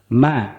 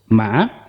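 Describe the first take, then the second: First: The pitch stays level and flat. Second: The pitch dips down, then rises. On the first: "It's very flat" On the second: "is down and up"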